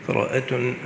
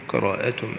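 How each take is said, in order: No difference in how they are said.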